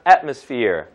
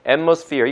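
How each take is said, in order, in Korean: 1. 첫 부분이 강하고 분명하게 분리됩니다. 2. 첫 부분이 나머지 부분과 게으르게 섞입니다. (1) "여기를 완전히 강하게 발음해서" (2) "이건 이제 레이지 사운드예요"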